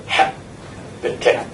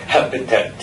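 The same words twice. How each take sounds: First: Slow, breathy habitat with HAB pressed hard; stress on HAB. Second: Said in the usual way. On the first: Shown as a demonstration. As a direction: lean on the first syllable of habitat, slowly. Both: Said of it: "stress the first syllable".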